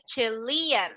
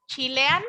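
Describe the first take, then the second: First: Chilean said as "cheh-lee-an", with a short English i in the first syllable; Chilean with a relaxed English first vowel; right pronunciation. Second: Chilean said as "chee-lee-an", with an ee sound in the first syllable; Chilean with a Spanish i in the first syllable; wrong pronunciation. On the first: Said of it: "voy a decir Chilean". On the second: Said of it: "no voy a decir Chilean". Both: Shown as a demonstration.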